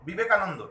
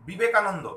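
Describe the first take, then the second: No difference in how they are said.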